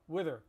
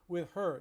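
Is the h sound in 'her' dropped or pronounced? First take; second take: dropped; pronounced. First: The h in 'her' is dropped, sounding 'er'. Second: The h in 'her' is fully pronounced. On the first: The speaker calls it right. "we pronounce it er" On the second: The speaker calls it wrong. "it's too much effort"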